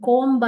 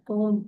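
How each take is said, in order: First: "comb" said as "komb", with the B voiced; B sounded. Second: "comb" said as "kome", ending on M; silent B. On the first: Teacher showing pupils the mistake, "comb" with an audible B. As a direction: pronounce the silent B in "comb". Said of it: "comb ಅಂತ ನಾವು ಹೇಳೋದಿಲ್ಲ". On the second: Teacher giving pupils the correct word, "comb" with B silent. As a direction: drop the B from "comb". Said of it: "comb ಅಂತ ಹೇಳ್ತೀವಿ". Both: Shown as a demonstration.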